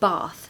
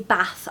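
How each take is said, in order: First: It is said with a southern English accent. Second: It is said with a northern English accent.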